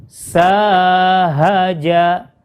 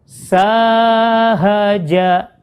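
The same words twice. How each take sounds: Both takes have the same delivery.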